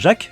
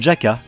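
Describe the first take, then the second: First: The name is said as one syllable. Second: The name is said as two syllables. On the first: The speaker calls it wrong. "ne se prononce pas Jack" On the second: The speaker calls it right. "mais Jaka"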